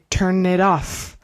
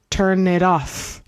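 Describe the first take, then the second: First: The words run together like one word. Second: The same.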